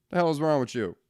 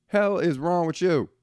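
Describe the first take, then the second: First: Said in the usual way. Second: Slower, higher, with "Hell" hit hard; pushing the repeat up into open outrage; exasperated outburst. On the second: Real, not acted. Repeats the rant line, escalating.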